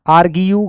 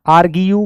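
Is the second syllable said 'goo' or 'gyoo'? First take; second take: gyoo; gyoo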